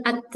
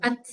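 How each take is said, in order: First: AT with an extra "e" after T; bounced at. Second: AT ending in pure breath, no bounce; correct at. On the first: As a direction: bounce the T of "at" into a short vowel. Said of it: "Kalau yang kedua ada e-nya". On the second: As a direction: let only air follow the T of "At". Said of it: "Yang pertama". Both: Shown as a demonstration.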